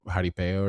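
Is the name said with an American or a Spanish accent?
Spanish. The name is said with a Spanish accent. "or probably Jari- Jaripeo or something like that"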